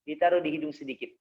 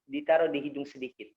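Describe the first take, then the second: No difference in how they are said.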